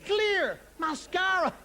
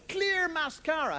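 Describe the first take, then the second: First: Slow mock disbelief; slower incredulous. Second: "Clear mascara" drawn out slowly; slow mock disbelief; slow incredulous. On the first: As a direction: drag it out in disbelief. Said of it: "repeated for emphasis". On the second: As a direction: let each word hang, scoffing. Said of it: "mocking product name". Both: Shown as a demonstration.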